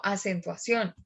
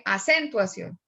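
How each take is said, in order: First: Said in the usual way. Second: "acentuación" with the stress misplaced on "cen"; wrong stress. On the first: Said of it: "sino acentuación". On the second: Shown as a demonstration. Teacher showing students what one doesn't say, "acentuación" mis-stressed on CEN. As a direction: say "acentuación" as a-CEN-tuacion, weak ending. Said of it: "Uno no dice acentuación".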